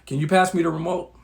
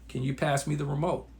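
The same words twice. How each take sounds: First: It is said in a harsh, irritated tone. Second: It is said in a smooth, gentle tone. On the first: The request provokes a fight. The speaker calls it wrong. "Now you just started World War Three" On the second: The request is friendly and calm. The speaker calls it right. "One way, pretty smooth"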